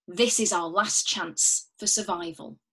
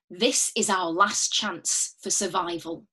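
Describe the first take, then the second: First: Said in the usual way. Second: Slow, measured, each word weighed; slow and grave. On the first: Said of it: "And again". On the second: Shown as a demonstration. Teacher modelling a dramatic line, slow and grave. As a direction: hold back and let it drag. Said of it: "maybe say it back to me".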